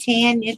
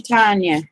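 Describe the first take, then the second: First: "Tanya" said TAN-ya, short a as in tan; higher-pitched Tanya with the vowel of tan; first pronunciation option. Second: "Tanya" said TAHN-ya, open ah; Tanya with a long ah, falling at the end; alternative pronunciation. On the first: Trying out a viewer's name, TAN-ya pronunciation. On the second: Trying out a viewer's name, TAHN-ya pronunciation. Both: Shown as a demonstration. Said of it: "Is it Tanya or Tanya?".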